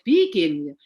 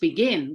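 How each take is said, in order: First: The stress is on the first syllable. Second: The stress is on the second syllable. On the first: The speaker calls it wrong. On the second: The speaker calls it right. "let's begin kan gitu toh"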